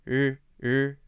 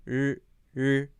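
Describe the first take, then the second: Both takes have the same delivery.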